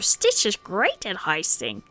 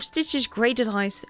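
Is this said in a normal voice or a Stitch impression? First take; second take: Stitch impression; normal voice. First: It is said in an impression of Stitch. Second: It is said in the speaker's normal voice.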